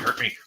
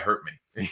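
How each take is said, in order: First: It is said eagerly and frantically. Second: It is said calmly and steadily. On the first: The person is desperately craving it. The speaker calls it wrong. "I don't want you to be fiending" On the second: The person clearly and soberly consents. The speaker calls it right. "clearly, yes, consent"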